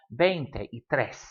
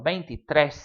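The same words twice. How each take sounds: First: Slow veinte y tres in separate words; broken into words. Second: Veintitrés run together, ending stressed on trés; said as one word. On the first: Teacher showing the three-word pattern, slow and separated. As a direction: keep veinte, y and tres apart, unhurried. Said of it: "stop and breathe in the middle". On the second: Teacher showing the one-word form, veintitrés run together. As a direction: join veintitrés with no gaps and land on trés. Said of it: "frequently written as one word". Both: Shown as a demonstration.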